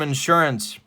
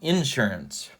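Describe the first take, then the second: First: It is said in a standard accent. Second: It is said in a Central Illinois accent.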